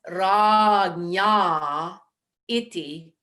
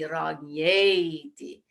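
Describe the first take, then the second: First: The two words are said separately, vowels apart. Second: The words merge, the vowels fusing into one. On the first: "Originally, it's ragnya iti" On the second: "So the a followed by the I will change"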